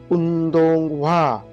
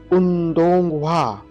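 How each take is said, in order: Both takes have the same delivery.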